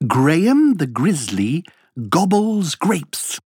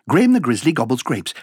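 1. Elle est dite à une vitesse modérée. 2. Elle est dite à une vitesse très rapide.

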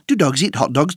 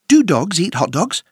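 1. La phrase est dite à un rythme très rapide. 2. La phrase est dite à un rythme rapide. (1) "Encore plus vite!" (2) "plus vite!"

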